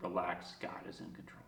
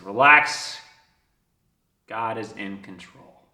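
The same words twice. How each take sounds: First: Barely audible, low whisper; hushed, whispered reassurance; awed whisper. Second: Measured, reassuring message after a long pause; calm revelation. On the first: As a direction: breathe the message to yourself. Repeats the sign in awe. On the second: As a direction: clear first word, then slow and lower. Reads the sign, first take. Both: Retold or imitated.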